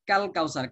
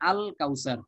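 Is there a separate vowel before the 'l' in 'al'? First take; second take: no; yes. First: The opening vowel drops, linking straight from 'k'. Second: The article's opening vowel is pronounced separately. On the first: "কাফ এসে সরাসরি লামকে ধরছে, মাঝখানে আলিফের উচ্চারণটা বিলুপ্ত হয়ে যাচ্ছে" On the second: "শুরুতে আমরা আল যুক্ত করেছি"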